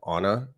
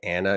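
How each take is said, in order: First: The first vowel is a soft A. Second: The first vowel is a hard A. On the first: "if it's a soft A" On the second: "I tend to say things with harder A's, like Anna"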